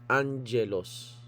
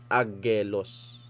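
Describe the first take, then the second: First: The double consonant is said as NG. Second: The double consonant is said as a hard G. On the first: The speaker calls it right. "pag ang dalawang gamma magkatabi, ang basa mo na dyan" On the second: The speaker calls it wrong. "Hindi mo basa dyan"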